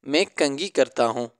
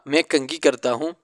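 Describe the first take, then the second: The two takes are said the same way.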